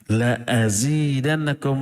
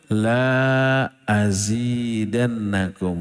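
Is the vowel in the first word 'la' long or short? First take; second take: short; long. First: The vowel in 'la' is short. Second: The vowel in 'la' is long. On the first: I will surely give you more. The speaker calls it right. "La-nya dibaca pendek. Jangan panjang" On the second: I will not give you more. The speaker calls it wrong. "jangan sampai dibaca"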